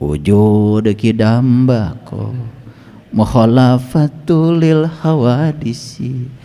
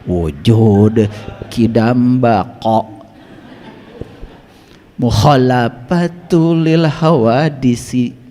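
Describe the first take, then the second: First: The Arabic consonants are articulated loosely. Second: The Arabic consonants are articulated precisely.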